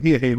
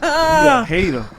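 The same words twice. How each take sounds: First: Said in the usual way. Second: Laughing. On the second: Real, not acted. Laughing at the hater comeback.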